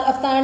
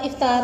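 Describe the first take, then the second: First: अफ्तार opening on a short a, "af-"; wrong pronunciation. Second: इफ्तार opening on a short i, "if-"; correct pronunciation. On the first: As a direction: say अफ्तार as "aftaar", the mistaken form. (अफ्तार, ग़लत तलफ़्फ़ुज़, शुरू में "अ") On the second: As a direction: say इफ्तार as "iftaar". (इफ्तार, सही तलफ़्फ़ुज़, शुरू में "इ") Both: Shown as a demonstration. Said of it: "अफ्तार नहीं होता".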